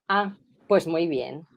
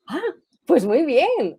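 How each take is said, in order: First: It sounds mocking and envious. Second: It sounds excited and happy.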